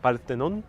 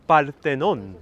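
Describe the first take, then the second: First: Spanish-flavoured Greek. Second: Parthenon in a Spanish accent, rolled r, open vowels; Spanish-flavoured Greek. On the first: Checking the Greek sound with viewers, Spanish accent. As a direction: repeat Parthenon Spanish-style to check. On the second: Trying a Spanish accent on Greek words for viewers, Spanish accent. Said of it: "Am I sounding more Greek now". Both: Shown as a demonstration.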